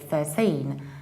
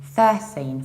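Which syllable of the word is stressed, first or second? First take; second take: second; first. First: The stress is on the second syllable. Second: The stress is on the first syllable. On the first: This is the ordinary standalone form. "normally you say thirteen" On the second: This is the form used when counting. "whenever you count, you need to say thirteen"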